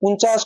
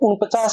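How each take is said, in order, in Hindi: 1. इसे बिना 'p' की आवाज़ के बोला जाता है। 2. इसे 'p' की आवाज़ के साथ बोला जाता है।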